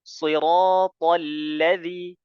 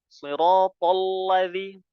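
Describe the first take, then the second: First: The l sound is light, not thickened. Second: The l sound is heavy and thick. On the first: The speaker calls it right. "lamnya eh tawastut" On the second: The speaker calls it wrong. "lamnya jangan ikut tebal"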